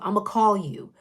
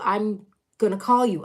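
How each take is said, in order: First: The phrase is clipped to a short I'ma. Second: The phrase is said as I'm gonna.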